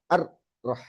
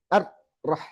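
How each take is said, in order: First: Ar-rah with ra held moderately, softly; correct ra. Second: Ar-rah with the ra stuck, slowly; wrong ra. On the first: Teacher modelling the right ra, softly. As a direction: let Ar-rah roll just enough. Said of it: "Tapi ar-rahman". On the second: Teacher showing the mistake, slowly. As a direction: slowly cut the ra in ar-rah short. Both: Shown as a demonstration.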